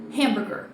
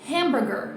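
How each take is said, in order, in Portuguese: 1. A sílaba tônica está na primeira sílaba. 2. A sílaba tônica está na primeira sílaba.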